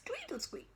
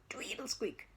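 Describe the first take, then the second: First: Much higher, soft squeak. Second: Whispered tweedle squeak. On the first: Storyteller squeaking the bike high. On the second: Storyteller whispering the fading bike squeak. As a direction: breathe the squeak away. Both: Acted.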